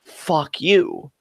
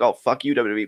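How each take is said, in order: First: Deliberate, weighty curse without shouting; seriously meant. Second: Offhand, passing curse; frustrated throwaway. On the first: Real, not acted. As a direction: set it apart and truly mean it. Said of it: "But no, no, seriously". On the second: Retold or imitated. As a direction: toss it off as a habitual gripe. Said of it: "as kind of a throwaway".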